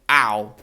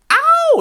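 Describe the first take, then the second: First: The ow is quiet and weak. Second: The ow is loud and strong.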